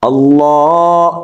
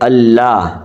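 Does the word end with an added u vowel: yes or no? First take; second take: yes; no. First: The word ends with an added u vowel. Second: The word ends without any added vowel. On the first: The speaker calls it right. "اس کے اوپر آپ کو پیش نظر آ رہی ہے" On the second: The speaker calls it wrong. "نہ کہ"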